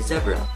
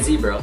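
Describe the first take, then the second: First: It is said with a British accent. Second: It is said with an American accent. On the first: "they say zebra" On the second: "Americans say zebra"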